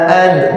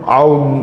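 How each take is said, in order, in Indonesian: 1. Vokalnya terbuka dan tidak bulat. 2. Vokalnya dalam dan membulat ke arah o. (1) "jangan aud aud" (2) "terlalu dalam"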